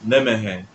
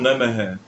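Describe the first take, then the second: No difference in how they are said.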